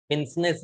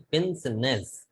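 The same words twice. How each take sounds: First: पिंसनेस run together, no vowel between स and न; wrong pronunciation. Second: पिंसनेस slow, in three parts, "pin-se-ness"; correct pronunciation. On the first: Teacher showing students how not to say it, पिंसनेस run together as "pinsness". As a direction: say पिंसनेस quickly as two joined syllables, "pins-ness". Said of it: "पिंसनेस नहीं". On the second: Teacher modelling the word for students, पिंसनेस slowly as "pin-se-ness". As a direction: draw out पिंसनेस with a vowel between स and न. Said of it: "इसको बोलते क्या है?". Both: Shown as a demonstration.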